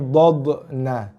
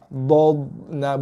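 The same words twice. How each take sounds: First: The consonant bounces with a hard echo. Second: The consonant stops softly without bouncing. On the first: The speaker calls it wrong. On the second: The speaker calls it right.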